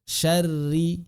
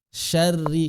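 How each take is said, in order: The two takes are said the same way.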